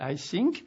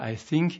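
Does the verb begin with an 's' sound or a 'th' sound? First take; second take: s; th. First: The verb begins with an 's' sound. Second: The verb begins with a 'th' sound. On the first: It sounds like 'I sink'. The speaker calls it wrong. "il dit « I think »" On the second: The speaker means 'I think'. The speaker calls it right. "Au lieu de dire « I think »"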